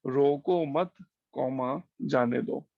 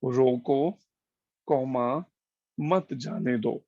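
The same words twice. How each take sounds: First: "रोको मत" as one phrase, then "जाने दो" apart; pause after मत. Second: "रोको" set apart, then "मत जाने दो" as one phrase; pause after रोको. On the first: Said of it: "रोको मत के बाद लगा दो". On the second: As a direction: stop firmly after रोको, before मत जाने दो. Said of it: "एक वाक्य है, "रोको, comma". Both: Shown as a demonstration.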